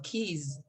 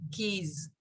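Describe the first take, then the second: First: "keys" ending in a z, not the s of kiss; teacher correcting "keys" to a z. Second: "keys" with a soft z ending; teacher's model of "keys" with z. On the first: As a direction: buzz the z at the end of "keys". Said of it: "Yo no digo kiss". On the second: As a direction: end "keys" on a buzzing z. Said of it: "es como una Z". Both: Shown as a demonstration.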